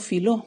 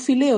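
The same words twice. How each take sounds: First: Filó with the vowels merged, stress on the final o; right form filó, short and contracted; filó as the correct contracted form. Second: Fileo said with vowels apart, fi-le-o; wrong form fileo, each vowel kept; uncontracted form. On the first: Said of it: "decimos filó". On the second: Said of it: "no decimos fileo". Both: Shown as a demonstration.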